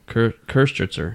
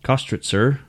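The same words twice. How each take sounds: First: The first vowel is a rounded umlaut ö sound. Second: The first vowel is a plain o sound. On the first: The speaker calls it right. "You have the umlauts of the O" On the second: The speaker calls it wrong. "I think I'm saying that right"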